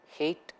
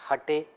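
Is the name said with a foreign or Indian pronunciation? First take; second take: foreign; Indian. First: The name has a foreign, non-Indian pronunciation. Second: The name has an Indian pronunciation. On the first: "H A T E may sound as, for the foreigners"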